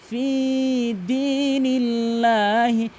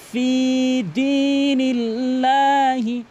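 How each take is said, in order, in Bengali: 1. 'fi' এর স্বরধ্বনিটি লম্বা করে টানা হয়। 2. 'fi' এর স্বরধ্বনিটি লম্বা করে টানা হয়।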